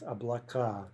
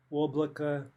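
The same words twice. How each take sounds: First: Облака with stress on the final а; stress on last syllable. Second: Облако with stress on the first о; stress on first syllable. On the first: Teacher showing the plural, облака stressed on the ending. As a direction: land firmly on the end of облака. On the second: Teacher showing the singular, облако stressed up front. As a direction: lean on the opening vowel of облако. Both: Shown as a demonstration. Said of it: "to the opposite syllable".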